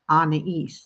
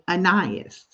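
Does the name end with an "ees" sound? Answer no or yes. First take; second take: yes; no. First: The name ends with an ees sound. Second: The name does not end with an ees sound. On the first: This is the French way of saying the name. The speaker calls it right. "like Anna from Frozen and East" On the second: This is how the family first read the spelling. The speaker calls it wrong. "we pronounced it Anais"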